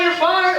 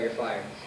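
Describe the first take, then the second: First: It is said angrily and loudly. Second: It is said calmly and gently.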